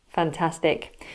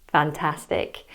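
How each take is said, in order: Both takes have the same delivery.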